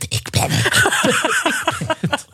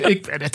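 First: Slow, giggling whisper through a door. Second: Said in the usual way. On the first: Retold or imitated. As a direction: whisper it so nobody else hears, half laughing. (gefluisterd, langzaam en lachend) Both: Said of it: "ik durfde niet te schreeuwen".

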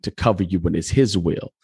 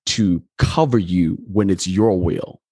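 First: "his" made the most prominent word; stress on HIS. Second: Slow line, contrastive weight on "your"; stress on YOUR. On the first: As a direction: lean on "his" as the contrast. Contrasts his will with your will. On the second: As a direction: set "your" against "his". Contrasts your will with his will. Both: Real, not acted.

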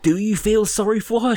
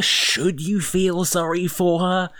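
First: High, stress on her, rising; wondering aloud. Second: High and slow, stress on you; slow pondering. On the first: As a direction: ask it with the weight on "her". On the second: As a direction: lean on "you", drawn out. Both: Retold or imitated. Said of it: "I was like".

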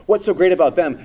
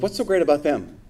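First: The envious question pushed out loud; louder indignant question. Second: Said in the usual way. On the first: Shown as a demonstration. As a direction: ask it louder and higher, with a bite of resentment. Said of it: "Not only asks". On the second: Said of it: "ask the question".

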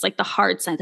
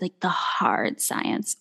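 First: Said in the usual way. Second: Softly whispered, slowed right down; hushed unvoiced. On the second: Shown as a demonstration. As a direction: whisper it slowly and breathily.

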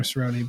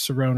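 First: CERRONE as "suh-ROH-nee", last E sounded; Cerrone with final ee. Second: CERRONE as "suh-RONE", silent last E; Cerrone without final ee. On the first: Unsure reader trying a name, Cerrone said "suh-ROH-nee". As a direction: say Cerrone in three syllables, ending in "nee". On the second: Unsure reader trying a name, Cerrone said "suh-RONE". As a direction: say Cerrone in two syllables, ending on an N. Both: Shown as a demonstration. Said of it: "I never know if it's".

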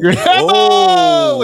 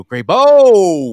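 First: Grabe O called out high and loud; calling out. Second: Calling out. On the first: Acted. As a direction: shout Grabe O up high like a game host. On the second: Retold or imitated. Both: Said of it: "we're just gonna go".

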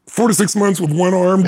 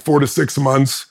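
First: Four to six months with one arm, pitched higher in disbelief; incredulous echo. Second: Said in the usual way. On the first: Real, not acted. Echoing the doctor's rehab estimate in disbelief. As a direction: repeat it back like it's absurd.

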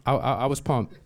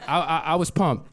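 First: Said in the usual way. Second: Laughing, a little higher, stammering with glee; pumped. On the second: Real, not acted. Telling the audience about his credit, laughing and giddy. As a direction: bubble over with laughter on it. Repeats line, first excited.

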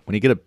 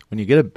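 Both takes have the same delivery.

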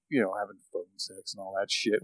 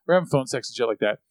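First: Near whisper. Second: Said in the usual way. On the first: Real, not acted. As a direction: voice dropped low and hushed. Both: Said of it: "Why am I whispering?".

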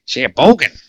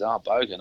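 First: Put-on loud, higher stab at a Canadian accent, landing nearer New York; attempted Canadian accent. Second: Said in the usual way. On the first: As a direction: have a bad go at a Canadian accent. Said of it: "try and do a Canadian accent here". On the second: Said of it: "now I've gotta try and do".

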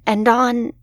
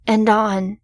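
No difference in how they are said.

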